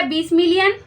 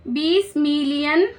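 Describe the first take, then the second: First: Said in the usual way. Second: बीस million said slowly, stretching बीस with a rising end; slow emphatic repeat. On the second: Shown as a demonstration.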